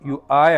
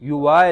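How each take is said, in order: First: A glottal stop separates the two vowels. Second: A w sound links the two vowels. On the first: The speaker calls it right. "ഹംസയാണ്" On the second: The speaker calls it wrong. "യുവാ അല്ല"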